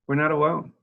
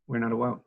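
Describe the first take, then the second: First: Higher and louder, "not" punched hard; emphatic, stress on not. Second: Said in the usual way. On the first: Real, not acted. Director telling reporters other homes struggle too, emphatic on not. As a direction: insist on "not" with force.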